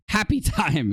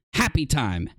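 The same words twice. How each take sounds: First: Laughing. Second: Said in the usual way. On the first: Shown as a demonstration. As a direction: laugh breaking into the word. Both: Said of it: "You gotta be happy and calm".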